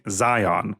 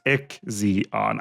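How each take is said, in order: First: The name starts with a 'z' sound. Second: The name starts with an 'ick' sound. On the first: "last week I was pronouncing Zion" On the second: "that's definitely how it is pronounced"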